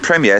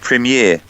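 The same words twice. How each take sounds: First: It is said with British pronunciation. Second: It is said with American pronunciation. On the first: "instead of saying premiere" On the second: "say premiere"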